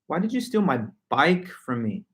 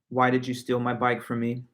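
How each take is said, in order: First: The strongest stress falls on the word bike. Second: It is said flat, with no word stressed. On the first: "I add all the stress and accent to the word bike" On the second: "I'm going to say this sentence in a flat monotone"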